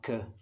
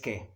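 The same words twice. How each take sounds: First: The vowel is reduced to a schwa. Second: The vowel is a full, clear e. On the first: The speaker calls it wrong. "It's not que" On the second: The speaker calls it right. "The schwa sound doesn't exist, so it's always que"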